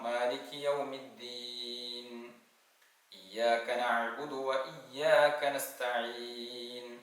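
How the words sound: There is a stop after yawmiddin. "ഒന്നുകിൽ നിർത്തി ഓതാം"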